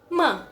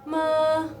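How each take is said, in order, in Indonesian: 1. Suku katanya diucapkan dengan penekanan kuat. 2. Nadanya tetap datar. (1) "ada penekanan" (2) "nadanya nadanya datar"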